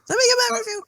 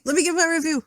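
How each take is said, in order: First: Sing-song repeat. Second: Said in the usual way. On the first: Shown as a demonstration.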